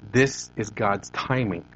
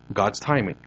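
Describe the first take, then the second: First: "This is God's timing" said slowly, leaning on "This"; "This is God's timing", slow and weighty with the weight on "This"; slow emphatic phrase. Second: Said in the usual way. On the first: Shown as a demonstration.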